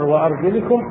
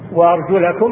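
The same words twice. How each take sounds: First: The vowel before -kum is i. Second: The vowel before -kum is a. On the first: The feet are grouped with what is wiped. "قراءة الجر" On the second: The feet are grouped with what is washed. "قراءة النصب"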